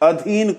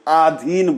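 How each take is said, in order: First: The first vowel is short. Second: The first vowel is long. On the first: The speaker calls it right. "अ" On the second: The speaker calls it wrong. "आ बोल जाते हैं"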